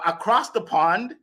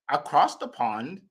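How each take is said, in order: First: Said in the usual way. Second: Mock European accent. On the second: Shown as a demonstration. Host introducing a speaker from overseas, playful European accent. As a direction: lightly put on a European accent. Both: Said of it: "That's my European accent".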